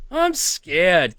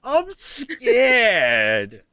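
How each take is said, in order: First: A touch of pretend fear, a bit higher; mock scared. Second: Higher mock fright through a laugh; mock scared, laughing. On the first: Joking after the creepy raven clip, mild mock fear. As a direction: say it like a joke fright, no laugh now. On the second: Joking after the creepy raven clip, laughing mock fear. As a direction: fake terror while cracking up.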